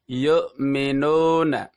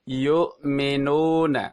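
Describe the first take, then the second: First: The u vowel is said with weakly rounded lips. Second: The u vowel is said with weakly rounded lips.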